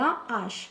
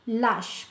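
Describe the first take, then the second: First: The article's vowel is kept before the noun. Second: The article's vowel is dropped before the noun. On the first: The speaker calls it right. "كنقولوا la H" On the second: The speaker calls it wrong. "ما كنقولوش lâche"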